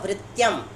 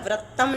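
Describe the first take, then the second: First: The ending has a t followed by a y glide. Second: The ending is a plain double t sound. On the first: The speaker calls it right. "भैया वृत्यम" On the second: The speaker calls it wrong. "यहाँ पर वृत्तम नहीं"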